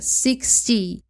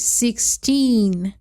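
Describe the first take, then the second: First: Said in the usual way. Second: Put-on sixteen with a long stressed teen. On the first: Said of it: "Se eu não coloco muita ênfase". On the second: Shown as a demonstration. Teacher shows students sixteen, long stressed teen. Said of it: "Se eu coloco a ênfase muito longa".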